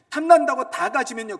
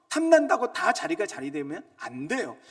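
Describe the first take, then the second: First: Louder, higher cry on 탐난다고; fervent peak of the sermon; preaching peak. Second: Louder sermon emphasis; preacher building up; loud preaching. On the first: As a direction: shout 탐난다고 at the congregation. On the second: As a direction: press the point on 탐난다고. Repeated line, builds. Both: Acted.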